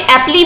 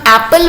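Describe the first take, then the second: First: The word ends with an added ee vowel. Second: The word ends on the l sound. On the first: The speaker calls it wrong. "हम यहाँ पे एप्पली भी बोल सकते हैं, लेकिन नहीं बोल रहे हैं" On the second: The speaker calls it right. "हम एप्पल बोल रहे हैं इसको"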